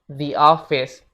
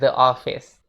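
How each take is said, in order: First: 'The' is said with a long 'ee' vowel. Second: 'The' is said with a short 'uh' vowel. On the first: The speaker calls it right. "Contoh lainnya" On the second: The speaker calls it wrong. "bukan the office"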